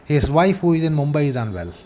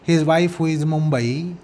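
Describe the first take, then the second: First: It is said in one stroke without a pause. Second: There is a pause after 'Mumbai'. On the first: "you have to utter this sentence in one stroke" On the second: "and take a pause"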